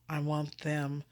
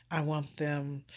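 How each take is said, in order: Both takes have the same delivery.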